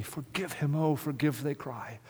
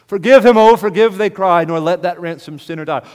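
First: Much softer, almost breathed; hushed plea. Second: Much louder and higher, a full cry; cried-out plea. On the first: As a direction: murmur the plea softly, as if in prayer. Hushed plea before loud repeat. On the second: Same plea cried out loud. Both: Acted.

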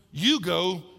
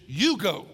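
First: You punched firmly, go lighter; You go with the weight on You; stress on you. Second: You hit hard and firm; You go with You emphatic; stress on you. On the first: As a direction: lean hard on You. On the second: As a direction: punch the word You. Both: Shown as a demonstration. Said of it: "You is in the emphatic position".

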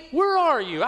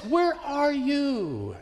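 First: High, quick anguished plea; pleading cry. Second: High, very slow, stretched-out cry; drawn-out desperate plea. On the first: Preacher voicing a believer who feels abandoned, urgent high cry. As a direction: throw the question up to heaven. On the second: Preacher voicing a believer at the end of hope, slow high lament. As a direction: let the question hang in despair. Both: Retold or imitated. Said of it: "we just cry out".

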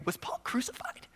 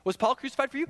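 First: Hushed mock astonishment; breathless whispered disbelief; stunned whisper. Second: Higher, puzzled question; literal-minded reader. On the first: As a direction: whisper it as a shocking discovery. Gullible reader stunned by the idea. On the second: Acted. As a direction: ask it as if in earnest. Reader taking sarcasm as real question.

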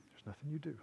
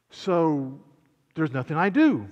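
First: Much softer, lower confirmation; quiet reply. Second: Acted challenge, punched on DO; questioning listener. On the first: Acted. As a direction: answer the questioner quietly and simply. Preacher answers the acted listener. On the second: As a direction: play a listener checking, leaning on "do". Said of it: "somebody doesn't sit up and say".

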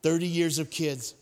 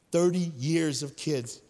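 First: Said in the usual way. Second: Put-on "Thirty years of kids" slowed, leaning on "Thirty"; slow emphasis. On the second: Shown as a demonstration. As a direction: drag out "Thirty years of kids" to drive it home. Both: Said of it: "repeated for emphasis".

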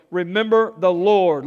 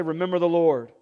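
First: Proclaimed. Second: Said in the usual way. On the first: Shown as a demonstration. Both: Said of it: "Look at someone and say".

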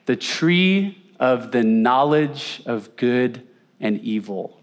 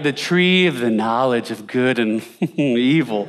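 First: Said in the usual way. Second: The grand title, said with a laugh breaking in; mock the lofty name, laughing at it; mock solemn, laughing. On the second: Shown as a demonstration. Preacher mocking how we treat the tree, laughing. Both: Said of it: "that's why we treat it".

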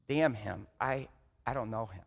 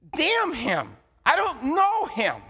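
First: Low and soft, almost grieving; hushed repeat. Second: Loud, high, bitter denial; Peter's curse. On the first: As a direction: whisper the denial as if ashamed. Same curse repeated, now hushed. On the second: Peter cursing, denying Jesus. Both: Retold or imitated.

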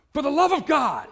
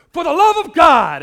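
First: Loud, high exclamation, right in someone's face; shout. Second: Very loud and high, stretched slowly; slow full-throated shout. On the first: Scott calling out to people at the campus gathering, a loud high shout. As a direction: bellow it like a fervent preacher. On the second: Scott moving down the line to the next person, a slow roaring shout. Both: Retold or imitated.

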